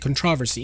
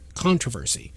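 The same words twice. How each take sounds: First: It is said the way common in Britain. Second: It is said the way common in America. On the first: "it's commonly found in Britain, for example, to say controversy" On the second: "in the U S you would hear most definitely"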